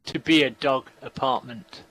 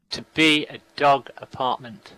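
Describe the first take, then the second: No difference in how they are said.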